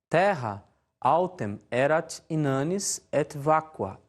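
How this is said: It is said in Brazilian Portuguese-style Latin pronunciation. "a pronúncia à maneira do português do Brasil"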